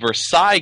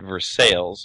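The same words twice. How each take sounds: First: The name has its usual standard pronunciation. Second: The name has the altered local pronunciation. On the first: "There's also a Versailles" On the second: "but they pronounce it Versailles"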